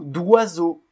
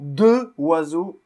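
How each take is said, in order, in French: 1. La voyelle de 'de' tombe, et se lie à 'oiseaux'. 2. Le 'de' garde sa voyelle devant 'oiseaux'. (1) "Mais on dit" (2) "On ne dit pas"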